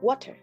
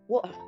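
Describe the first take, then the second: First: An American accent with a flatter sound. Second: An Australian accent with an Aussie flair. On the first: "in the U S, you might hear water" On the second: "in Australia, it's sometimes more like water"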